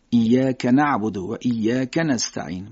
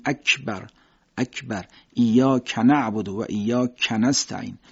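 First: Slow, thin k in ایاک, from back by the uvula; ایاک with an unpalatalized, thin Arabic k; thin Arabic kaf. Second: اکبر and ایاک with k spread on the palate; slowly, a palatal Persian "ky" in ایاک; Persian-style k in اکبر and ایاک; Persian kaf. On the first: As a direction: recite ایاک slowly with a light Arabic k. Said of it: "با زبان کوچیک نازک ادا میشه". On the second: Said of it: "صدا تو فضای دهان پخش میشه، میگیم". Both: Shown as a demonstration.

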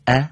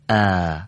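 First: ا with a short, clipped a vowel; short fatha. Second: ا with a drawn-out aa vowel; long fatha. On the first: Teacher contrasting a short ا with a long one. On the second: Teacher contrasting a long ا with a short one. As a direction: stretch the fatha on ا. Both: Shown as a demonstration. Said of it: "فقط در کشش اونها مختصری فرق هست".

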